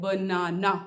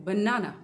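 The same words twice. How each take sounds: First: "banana" slowly split into three syllables. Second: "banana" as one word, middle syllable stressed. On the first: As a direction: break "banana" up as ba-na-na. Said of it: "तोड़ेंगे तो तीन syllable हैं". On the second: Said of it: "केवल बीच वाले को". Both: Shown as a demonstration.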